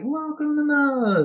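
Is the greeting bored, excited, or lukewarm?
lukewarm. It is said with lukewarm, half-hearted energy.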